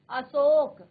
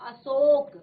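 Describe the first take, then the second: No difference in how they are said.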